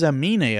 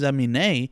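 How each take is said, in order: First: The stress falls on the middle syllable. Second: The stress falls on the final syllable. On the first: The speaker calls it right. "but it's [name], I believe ... Put the fucking accent mark on the I" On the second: The speaker calls it wrong. "he has the accent mark on the E, so I'm assuming it's Amine"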